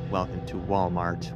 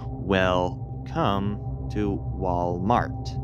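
First: Welcome is said as one word with normal stress. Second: Welcome is split, with odd stress on come.

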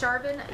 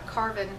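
First: The name begins with a ch sound. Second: The name begins with a k sound. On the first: The speaker calls it right. "I'm thinking it's pronounced Charvin" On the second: The speaker calls it wrong. "not Carvin, because that would just be weird"

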